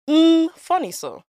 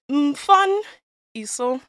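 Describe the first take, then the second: First: The first syllable is not emphasized. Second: The first syllable fun is emphasized. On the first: The speaker calls it wrong. "it's not funny so" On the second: The speaker calls it right. "the emphasis is on the fun"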